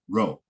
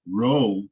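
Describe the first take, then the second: First: The vowel is rushed and clipped short. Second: The vowel is held full and unhurried. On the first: The speaker calls it right. "it kind of rushes the vowel" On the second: The speaker calls it wrong. "not row"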